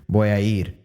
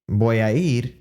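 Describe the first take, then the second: No difference in how they are said.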